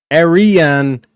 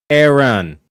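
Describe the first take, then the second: First: "Arian" in three stretched syllables, air-ee-an; drawn-out syllables. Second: "Aaron" as air-un, no ee in the middle; two-syllable version. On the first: Streamer comparing two similar words, drawn-out syllables. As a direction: sound out "Arian" slowly with an air start and clear ee. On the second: Streamer comparing two similar words, two-syllable version. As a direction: say "Aaron" with an air start, ee left out. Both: Shown as a demonstration. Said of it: "Both that uh sound".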